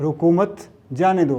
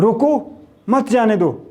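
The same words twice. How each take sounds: First: The pause comes right after the second word. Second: The pause comes right after the first word. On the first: Do not stop them; let them go. "रोकना नहीं है।" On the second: Stop them; do not let them go. "मत जाने दो।"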